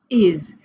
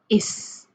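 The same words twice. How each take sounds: First: The word ends with a buzzing z sound. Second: The word ends with a hissing s sound. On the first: The speaker calls it right. "So s, we pronounce it like z" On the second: The speaker calls it wrong. "If you read it like this, it's not correct"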